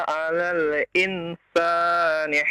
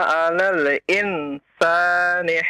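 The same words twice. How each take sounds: The two takes are said the same way.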